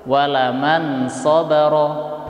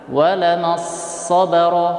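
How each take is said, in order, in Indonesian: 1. Bunyi n dibaca jelas sebelum s. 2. Bunyi n menyatu ke dalam s yang dobel. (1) "Contoh membaca dengan izhar, kita baca jelas" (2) "tidak dibaca dengan idgham"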